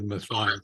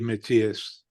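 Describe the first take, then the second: First: The name is said with an American pronunciation. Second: The name is said with a European pronunciation. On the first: "We're in the U S. He's American. Let's go with Matthias" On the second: "if you were in Europe, it might be Matthias. That's how they would pronounce it"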